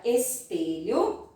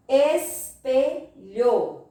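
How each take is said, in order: First: Said in the usual way. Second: "Espelho" very slow in three separate beats; teacher slowly dividing "Espelho" by syllable. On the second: Shown as a demonstration. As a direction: break "Espelho" into three firm syllables with pauses. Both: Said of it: "Vamos separar por sílaba".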